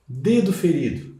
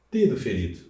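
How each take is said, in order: First: "Dedo ferido" said slowly, leaning on "Dedo" with a falling close; teacher stressing "Dedo ferido" as the adjective case; slow emphatic example. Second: Said in the usual way. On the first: Shown as a demonstration. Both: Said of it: "virou adjetivo".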